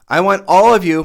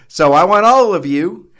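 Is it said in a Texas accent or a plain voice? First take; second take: plain; Texas. First: It is said in his plain storytelling voice. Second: It is said with a Texas country accent.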